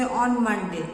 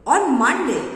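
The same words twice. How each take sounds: First: Unexcited, low-pitched reply. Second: Excited. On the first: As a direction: demonstrate a subdued, low-toned answer. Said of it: "in a low pitch". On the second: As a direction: answer with excitement, pitch and volume raised. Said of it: "other person is very excited". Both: Shown as a demonstration.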